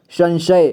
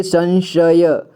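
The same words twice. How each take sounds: First: Said in the usual way. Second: संशय slowly split as "san-sha-ya"; संशय with final य voiced as "ya"; sounded out. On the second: Shown as a demonstration. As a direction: spell out संशय letter by letter. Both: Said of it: "क्या पढ़ेंगे इसे?".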